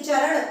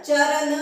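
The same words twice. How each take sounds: First: चरण ending in retroflex ण, louder and firm; teacher giving the right form; correct retroflex charan. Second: The wrong way, dental n; teacher showing the mistake; wrong charan, dental n. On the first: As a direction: curl the tongue back for the ण of चरण. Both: Shown as a demonstration. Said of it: "चरण नहीं".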